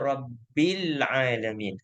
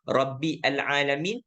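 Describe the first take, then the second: First: The two words are joined smoothly as 'Rabbil'. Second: The two words are split, with a separate 'al'. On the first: The speaker calls it right. "Kita baca Rabbil Alamin" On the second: The speaker calls it wrong. "Kita ada baca tak Rabbi Al-Alamin? Tak ada"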